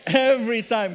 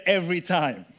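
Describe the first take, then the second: First: Loud group response. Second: "Every time" said firmly with stress on "Every"; leading the response. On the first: Congregation answers the preacher with a loud call. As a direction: shout "Every time" back with the crowd. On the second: Preacher cues the congregation to answer "Every time". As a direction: give "Every time" as a firm cue. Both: Shown as a demonstration. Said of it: "Everyone say".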